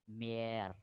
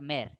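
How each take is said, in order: First: The vowel is long. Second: The vowel is short. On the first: The speaker calls it right. "Long sound" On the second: The speaker calls it wrong. "Not mere"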